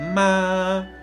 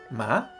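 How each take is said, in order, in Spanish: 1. El tono se mantiene alto y estable todo el tiempo. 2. El tono sube de medio a alto. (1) "ese sería el primer tono" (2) "El segundo tono es ascendente"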